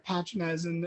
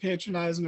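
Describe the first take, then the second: First: The word is pronounced the British way. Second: The word is pronounced the American way.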